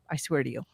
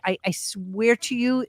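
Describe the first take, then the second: First: Softer, dropped swear; quiet. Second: Said in the usual way. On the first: Real, not acted. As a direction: say it again under the breath. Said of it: "repeats oath, softer". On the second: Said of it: "repeats oath".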